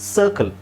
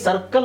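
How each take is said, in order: First: The first vowel is long and drawn out. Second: The first vowel is short and clipped. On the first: "ಇಂಗ್ಲೀಷಲ್ಲಿ ಏನು ಹೇಳ್ತೀವಿ" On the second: "ನಾವು ಇದನ್ನು common ಆಗಿ ಸರ್ಕಲ್ ಅಂತ ಹೇಳ್ತೀವಿ"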